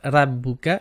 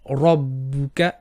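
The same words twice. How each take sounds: First: The r is light, with a flat mouth. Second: The r is heavy, with a rounded mouth. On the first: The speaker calls it wrong. "not rabbuka" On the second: The speaker calls it right. "you're going to make your mouth heavy"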